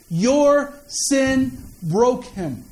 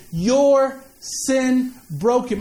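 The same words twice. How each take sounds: First: "Your sin broke him" dragged out slowly; slow emphatic. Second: "Your sin broke him" again, very slowly, "Your" stressed; slow emphatic repeat. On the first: Preacher hammering home to the congregation, very slow. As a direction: lean on "Your", slow and heavy. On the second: Preacher repeating the line to the congregation, slow and weighty. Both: Shown as a demonstration. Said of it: "Let me say it again".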